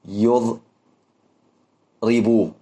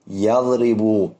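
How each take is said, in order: First: The first syllable is said with a u vowel. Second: The first syllable is said with an a vowel. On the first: The speaker calls it wrong. "لا تقول يضرب" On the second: The speaker calls it right. "فالمضارع يفتح، تقول يضرب"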